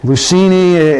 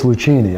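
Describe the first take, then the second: First: The name is said the American way. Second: The name is said the Italian way. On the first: "in America" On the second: "back in Italy it's"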